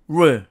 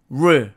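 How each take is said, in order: The two takes are said the same way.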